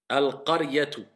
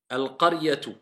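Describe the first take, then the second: No difference in how they are said.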